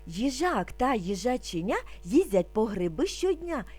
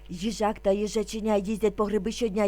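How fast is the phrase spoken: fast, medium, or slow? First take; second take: medium; fast. First: It is spoken at a slightly quicker pace. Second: It is spoken at a very fast pace. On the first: "трошки швидше" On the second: "дуже швидко"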